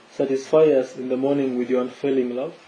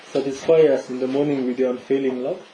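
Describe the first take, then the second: Both takes have the same delivery.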